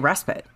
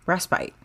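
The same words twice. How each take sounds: First: The word is said in an American pronunciation. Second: The word is said in a British pronunciation. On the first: "in America, we say respite" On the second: "It's the British pronunciation is respite"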